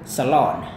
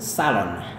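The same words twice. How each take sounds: First: It is said with an American accent. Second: It is said with a British accent. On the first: "Jika Anda menggunakan Amerika" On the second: "melafalkan gaya yang British"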